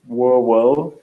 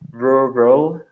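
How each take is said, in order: First: The R sounds are soft, almost like a W. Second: The R sounds are clear, full R sounds.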